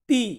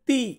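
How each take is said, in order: The two takes are said the same way.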